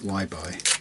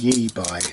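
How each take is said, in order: First: The first syllable sounds like 'why'. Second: The first syllable sounds like 'yeh'. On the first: The speaker calls it wrong. "not Y-buy" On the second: The speaker calls it right. "I think you'd probably pronounce it ye-buy"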